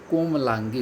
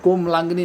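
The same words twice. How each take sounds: First: कोमलांगी ending in गी without न; कोमलांगी said as the right form with gi; correct form komalangi. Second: कोमलांगनी with an extra न before the final ई; कोमलांगनी said as the wrong form with ni; wrong form komalangni. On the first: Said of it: "कोमलांगी होता है". (सही रूप कोमलांगी) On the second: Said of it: "कोमलांगनी नहीं होता है". (गलत रूप कोमलांगनी) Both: Shown as a demonstration.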